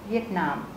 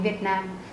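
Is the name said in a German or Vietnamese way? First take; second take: German; Vietnamese. First: It is said with German sounds and stress. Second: It is said with Vietnamese tones and sounds. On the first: The speaker calls it right. "mà chúng ta sẽ đọc là Việt Nam" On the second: The speaker calls it wrong. "chúng ta sẽ không đọc là Việt Nam như là tiếng Việt Nam"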